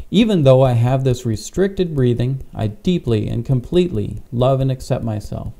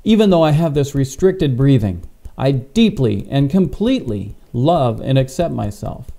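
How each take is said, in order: First: Said in the usual way. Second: Firm emphasis on "deeply" and "completely"; emphatic affirmation with punched key words. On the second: Shown as a demonstration. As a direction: say it like you mean it, leaning on "deeply and completely". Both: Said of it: "you wanna be emphatic in this".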